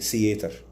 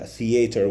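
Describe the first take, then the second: First: The word begins without a th sound. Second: The word begins with a th sound. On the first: The speaker calls it wrong. "we say" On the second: The speaker calls it right. "We do not say"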